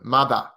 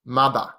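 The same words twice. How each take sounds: Both takes have the same delivery.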